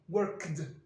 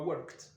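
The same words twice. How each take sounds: First: The ending is pronounced as a d sound. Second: The ending is pronounced as a t sound. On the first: The speaker calls it wrong. "ce sera difficile de dire worked" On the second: The speaker calls it right. "On va transformer le de en t. Donc ça donnera worked"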